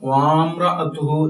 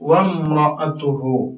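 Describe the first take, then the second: First: The first vowel is drawn out long. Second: The first vowel is kept short. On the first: The speaker calls it wrong. "ഈ അലിഫ് നീട്ടി വായിക്കുന്ന കാണാം" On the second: The speaker calls it right. "ഈ അലിഫിന് ഉച്ചാരണം ഇല്ല"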